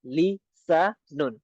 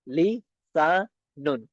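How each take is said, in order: First: Slow. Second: Very slow. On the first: Teacher repeats लिसानुन slowly for students. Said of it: "city की आवाज आएगी". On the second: Teacher slowly models the s sound in लिसानुन. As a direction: draw लिसानुन out long, with a clear hissing s. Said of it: "क्योंकि सीन है ना, तो city की आवाज आएगी". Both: Shown as a demonstration.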